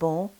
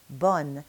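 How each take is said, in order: First: The vowel is nasal, with no final n. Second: The vowel is oral, with a final n. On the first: The speaker calls it wrong. "it's not pronounced bon" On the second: The speaker calls it right. "it's pronounced bonne"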